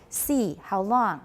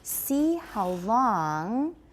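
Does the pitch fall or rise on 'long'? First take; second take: fall; rise. First: The pitch falls at the word 'long'. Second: The pitch rises at the word 'long'. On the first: The speaker calls it wrong. "you're falling. You've got these falling pitches. So you'll say like" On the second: The speaker calls it right. "continuation rise"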